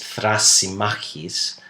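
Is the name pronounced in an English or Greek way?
Greek. The name is pronounced the Greek way. "the Greek pronunciation is Thrasymachus"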